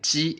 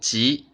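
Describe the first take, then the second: First: The pitch stays high and level. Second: The pitch rises from mid to high. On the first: It means chicken. "ji is the first tone" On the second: It means lucky. "that's the second tone in Chinese"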